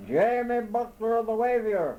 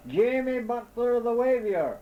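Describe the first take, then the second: First: High, loud polite call. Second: High, loud roar of his name. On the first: Lost man answering the owl overhead, high and loud. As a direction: answer up into the tree. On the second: Lost man roaring his name at the owl, high and loud. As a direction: bellow your name into the trees. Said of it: "as loud as I could roar". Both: A narrator's reading.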